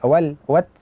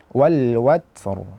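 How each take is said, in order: First: The final r is light and thin. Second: The final r is heavy and thick. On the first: The speaker calls it wrong. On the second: The speaker calls it right. "ra dibaca tebal"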